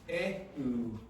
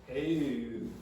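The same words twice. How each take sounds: The two takes are said the same way.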